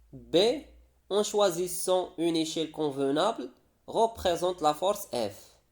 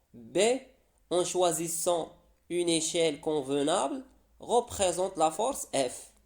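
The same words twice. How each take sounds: The two takes are said the same way.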